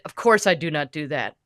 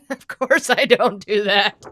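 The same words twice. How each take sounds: First: Said in the usual way. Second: Laughing through the words, slower; amused denial, slow and chuckling. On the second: Real, not acted. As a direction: laugh while denying it. Laughs at the joke.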